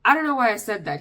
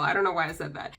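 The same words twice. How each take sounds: First: John Mulaney impression. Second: Said in the usual way. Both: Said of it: "To quote the late, great John Mulaney".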